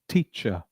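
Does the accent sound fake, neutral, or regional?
neutral. It is said in a neutral standard international accent. The speaker calls it right. "your standard accent will become"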